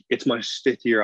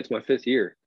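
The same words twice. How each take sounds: First: The voice sounds tense and pressured. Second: The voice sounds relaxed and easygoing. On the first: He feels he must perform and make the team. The speaker calls it wrong. "you could hear that in my voice of like" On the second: He intends to enjoy playing. The speaker calls it right. "versus, hey"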